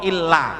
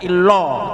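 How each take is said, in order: First: The L is thin, with an open vowel. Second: The L is thick, with a rounded vowel. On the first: The speaker calls it right. "tapi illa" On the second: The speaker calls it wrong. "tidak illo"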